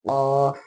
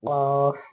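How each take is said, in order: The two takes are said the same way.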